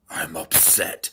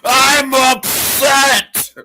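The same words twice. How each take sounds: First: It is said at a moderate volume. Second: It is yelled at the highest volume. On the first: "say you're upset"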